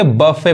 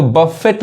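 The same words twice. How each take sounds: First: बफे ending on an open "fay"; silent T. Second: बफेट with the final t sounded; wrong pronunciation. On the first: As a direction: say बफे with no t at the end. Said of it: "बफे पढ़ेंगे". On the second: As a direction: say बफेट closing on a T. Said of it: "इसको बफेट नहीं पढ़ेंगे". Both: Shown as a demonstration.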